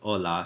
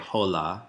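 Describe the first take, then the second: First: The word starts directly with the vowel sound. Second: The word starts with an audible H sound. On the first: The speaker calls it right. "it's hola" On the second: The speaker calls it wrong. "Don't pronounce the H. You wouldn't say hola"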